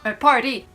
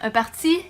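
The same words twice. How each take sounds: First: The word is pronounced the English way. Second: The word is pronounced the French way. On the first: This is how people in Quebec say it. "Nous autres, c'est vraiment un party. On va le prononcer à l'anglaise" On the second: This is how people in France say it. "vous, vous allez dire un party"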